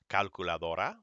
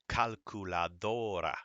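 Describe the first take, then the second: First: The next-to-last syllable has ordinary, unexaggerated stress. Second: The next-to-last syllable rises with exaggerated stress. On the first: "now here it is just reading it regular" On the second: "listen to how the word kind of rises up on the next to last syllable"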